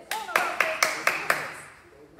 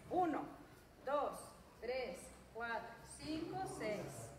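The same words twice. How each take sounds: First: Loud, rapid counting shout; fast shouted count. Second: Drawn-out, unhurried counting; slow count. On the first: Coach pushing the class to punch faster, shouting the count. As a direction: bark the numbers to speed them up. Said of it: "Más rápido". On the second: Coach counting slow punches for the class, drawn out. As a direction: count slowly so the class keeps pace. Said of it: "dos rectos despacio". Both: Shown as a demonstration.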